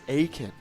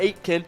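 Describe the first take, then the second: First: The T sound is silent in the name. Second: The T sound is pronounced in the name. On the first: The speaker calls it right. "Don't pronounce the T in it" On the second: The speaker calls it wrong. "it's not Aiken"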